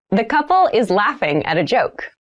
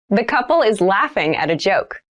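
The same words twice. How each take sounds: The two takes are said the same way.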